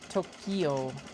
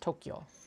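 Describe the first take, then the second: First: Each syllable is sounded out separately. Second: The syllables blend together smoothly. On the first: "it just basically sounding out all the syllables" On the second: "it blends it in more"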